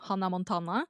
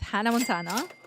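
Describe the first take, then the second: First: The name is pronounced with Norwegian sounds. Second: The name is pronounced with English sounds.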